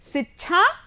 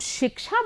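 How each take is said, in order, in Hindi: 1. बीच का व्यंजन महाप्राण 'chh' ध्वनि है। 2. बीच का व्यंजन 'ksh' संयुक्त ध्वनि है। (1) "शिक्षा नहीं बोलेंगे" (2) "हम शिक्षा बोलते समय"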